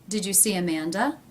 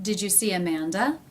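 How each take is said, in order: The two takes are said the same way.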